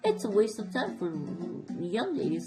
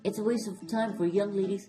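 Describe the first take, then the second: First: It is read in a put-on character voice. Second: It is read in the reader's ordinary voice.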